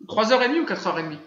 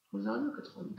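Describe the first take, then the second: First: Said in the usual way. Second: Under-breath repeat. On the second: Real, not acted. Repeats the question to himself.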